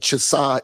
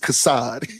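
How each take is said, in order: First: The name begins with a 'ch' sound. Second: The name begins with a 'k' sound. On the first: The speaker calls it wrong. "You be calling him Chasad" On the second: The speaker calls it right. "It's Kas- it's Kassad"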